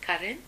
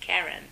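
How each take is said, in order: First: The name is said differently from its spelling. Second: The name is said the way it is spelled. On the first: This is how the name is really said. The speaker calls it right. "but it's Karen" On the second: This is a reading based on the spelling. The speaker calls it wrong. "when I see the spelling I say Karen"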